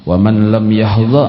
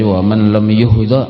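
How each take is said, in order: First: The verb's first vowel is an open 'a'. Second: The verb's first vowel is a rounded 'u'. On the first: The verb is read in the active voice. "bisa ma'ruf" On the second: The verb is read in the passive voice. "boleh juga dibaca wa man lam yuhdha, bisa majhul"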